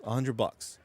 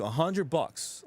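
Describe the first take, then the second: First: Said in the usual way. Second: "A hundred bucks" drawn out slowly with weight on "hundred"; slowed, emphatic repeat of "A hundred bucks"; slow, stressed disbelief. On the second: Real, not acted. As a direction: let each word land, stunned by the price.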